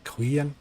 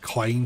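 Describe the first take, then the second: First: The vowel sounds like 'ee', as in clean. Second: The vowel sounds like 'eye', as in Klein. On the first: The speaker calls it right. "but I think it's the Clean" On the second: The speaker calls it wrong. "I always want to call it the Klein for some weird bizarre reason"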